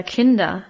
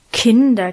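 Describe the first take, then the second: First: Softer admonishment. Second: Louder first admonishing "Kinder"; admonishing call. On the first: Brother-in-law gently reproaching the children, soft admonishing. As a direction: let it fall to a gentle warning. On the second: Brother-in-law calling quarreling children to order, admonishing. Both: A narrator's reading. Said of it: "mahnte er".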